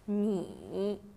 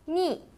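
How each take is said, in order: First: The pitch dips low, then comes back up. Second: The pitch falls sharply from high to low.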